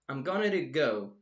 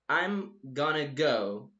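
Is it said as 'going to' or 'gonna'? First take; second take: going to; gonna. First: The full form 'going to' is pronounced. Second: The reduced form 'gonna' is pronounced. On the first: "Going to" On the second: "sound like gonna"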